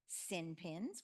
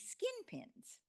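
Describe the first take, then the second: First: The first word is said without a k sound. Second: The first word is said with a k sound.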